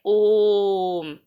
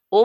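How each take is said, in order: First: ओम with a long level O fading into m; prolonged Om. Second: ओ said briefly, without stretching; short O. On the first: Teacher showing that Om takes more time, long drawn out. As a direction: draw ओम out slowly on one steady note. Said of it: "ज़्यादा समय में लगता है". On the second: Teacher contrasting plain O with long Om, said short. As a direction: say ओ quickly and let it go. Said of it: "कम समय लगेगा". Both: Shown as a demonstration.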